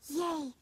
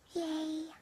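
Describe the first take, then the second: First: The cheer is shouted loudly. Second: The cheer is weak and quiet.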